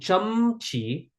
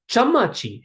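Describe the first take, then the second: First: The middle vowel is dropped, giving two syllables. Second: A vowel follows each consonant, giving three syllables. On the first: This is how the word is actually said. "Why is a teaspoon chumchi" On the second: This is how a reader of the script would expect it. "Why is this not chamachi? ... the invisible uh here"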